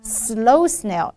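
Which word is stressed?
slow. The stress falls on the word slow. The speaker calls it right. "it's supposed to be a little slow snail"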